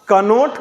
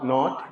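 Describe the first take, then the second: First: The word begins with a sounded k. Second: The word begins with an n sound. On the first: The speaker calls it wrong. "कनोट कभी नहीं पढ़ेंगे" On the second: The speaker calls it right. "के को silent"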